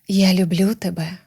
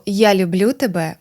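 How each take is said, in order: First: The voice is warm, with audible breath. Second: The voice is plain, with no added breath. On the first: "одразу у звуці з'явилося повітря, тепло" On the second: "можна сказати ось так"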